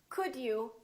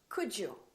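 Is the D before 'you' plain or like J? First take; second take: plain; J. First: The D is a plain D before you. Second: The D and you merge into J.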